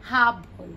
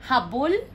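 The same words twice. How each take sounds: First: "Habol" as HA-bol, falling; stress on first syllable. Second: "Habol" as ha-BOL, rising; stress on last syllable. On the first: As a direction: drop off after HA in "Habol". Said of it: "the stress is in the middle". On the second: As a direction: raise the end of "Habol". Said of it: "So the stress is here". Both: Shown as a demonstration.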